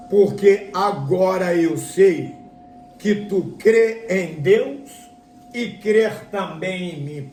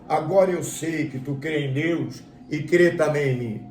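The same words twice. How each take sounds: First: Slow, emphatic proclamation from heaven. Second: Said in the usual way. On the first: Acted. Preacher voices heaven affirming Abraham's faith, slow proclamation. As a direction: stretch each phrase out like a divine pronouncement. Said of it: "E aquela voz diz assim". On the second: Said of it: "que voz é essa que bradou".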